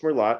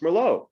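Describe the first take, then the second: First: The final t is sounded, following the spelling. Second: The final t is silent, unlike the spelling. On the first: The speaker calls it wrong. "it's not pronounced Merlot" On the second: The speaker calls it right. "It's pronounced Merlot"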